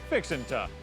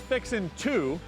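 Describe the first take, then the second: First: The last word is reduced to a quick 'ta'. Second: The last word is a full, clear 'to'. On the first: "you pronounce it" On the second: "it's spelled as"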